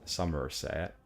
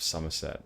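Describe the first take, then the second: First: Somerset drawn out in a farmer accent, r sounded; rustic Somerset-accented SOMERSET, syllables stretched. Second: Said in the usual way. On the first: Shown as a demonstration. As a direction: attempt a West Country farmer's Somerset, rising at the end. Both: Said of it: "farmer accent of Somerset".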